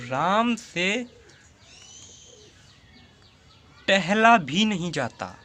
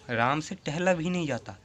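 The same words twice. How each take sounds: First: Slow, deliberate, each word drawn out; slow dictation. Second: Said in the usual way. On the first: Shown as a demonstration. Teacher slowly dictating an example sentence to students. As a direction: spell the example out slowly for the class. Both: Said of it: "जैसे एक उदाहरण ले लेता हूँ".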